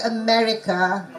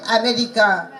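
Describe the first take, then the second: First: "America" begun with a weak "uh"; reduced first vowel. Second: "America" begun with a full open A; unreduced first vowel. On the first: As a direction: pass lightly over the first A of "America" to stress ME. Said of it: "Some syllables are not stressed". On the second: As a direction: give the first vowel of "America" too much weight. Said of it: "you can't say America". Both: Shown as a demonstration.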